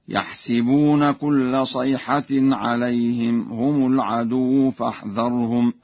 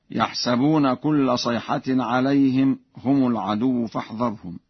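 First: «يحسبون» said "yahsibuna", with i after the s; Warsh kasra on sin. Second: Said in the usual way. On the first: Shown as a demonstration. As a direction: recite slowly, putting an i in «يحسبون». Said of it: "بكسر السين هكذا". (تلاوة ورش بكسر سين «يحسبون») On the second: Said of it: "بكسر السين".

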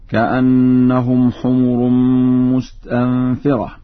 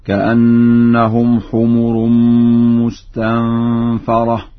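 First: Said in the usual way. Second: Slow recitation, "مستنفرة" as mustanfara; fatha on the fa. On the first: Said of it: "قرأها ورش بفتح الفاء". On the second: Shown as a demonstration. Teacher shows Warsh's reading, slow chant with "مستنفرة" as mustanfara. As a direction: open the fa to "fa" in "مستنفرة", not "fi". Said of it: "بفتح الفاء هكذا".

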